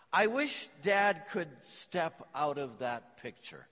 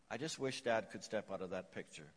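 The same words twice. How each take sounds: First: Put-on slow, a touch tearful lonely little boy; a lightly voiced sad child, drawn out. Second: Put-on the boy's wish echoed much softer and lower; softly repeated. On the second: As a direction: let the line sink to a hushed echo. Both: A narrator's reading. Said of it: "said tearfully".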